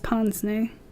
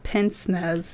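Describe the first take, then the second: First: The word is said like 'pons-nay'. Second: The word is read out as it is spelled. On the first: The speaker calls it right. "It looks like pince-nez, though. That's Ponsney" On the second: The speaker calls it wrong. "I'm going to pronounce this wrong. It's not pince-nez"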